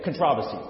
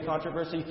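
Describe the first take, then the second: First: Controversy with the stress on TROV; controversy the British way, second syllable stressed; British pronunciation. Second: Controversy with the stress up front on CON; controversy the American way, first syllable stressed; American pronunciation. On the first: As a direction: say kuhn-TROV-uh-see for controversy. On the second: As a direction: say CON-truh-ver-see for controversy. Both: Retold or imitated. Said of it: "he maintains his British accent".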